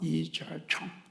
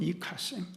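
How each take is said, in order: First: The name is said with Mandarin pronunciation. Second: The name is said with Cantonese pronunciation. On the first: "중국식으로 발음하면" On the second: "광동어식으로 하면"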